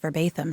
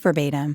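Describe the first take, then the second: First: The middle consonant is lisped as th. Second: The middle consonant is a plain t sound. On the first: "But with the imagery, it's verbatim" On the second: "initially we were calling it verbatim, and it is verbatim"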